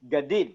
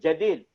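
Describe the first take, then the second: First: The word begins with a hard g sound. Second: The word begins with a j sound. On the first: "mereka ganti dengan ga juga" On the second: "Terus kalau Jim"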